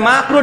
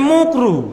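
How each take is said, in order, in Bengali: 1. প্রথম স্বরধ্বনিটি 'a'-এর মতো শোনায়। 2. প্রথম স্বরধ্বনিটি 'u'-এর মতো শোনায়।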